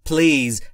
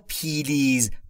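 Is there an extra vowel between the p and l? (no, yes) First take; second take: no; yes. First: The p and l are joined with no vowel. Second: An extra vowel separates the p and l. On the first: The speaker calls it right. "با این تلفظ please" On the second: The speaker calls it wrong. "و نه پیلیز"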